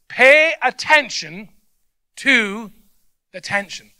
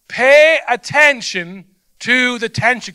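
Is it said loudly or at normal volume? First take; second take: normal volume; loudly. First: It is said at normal speaking volume. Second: It is said loudly, shouted out.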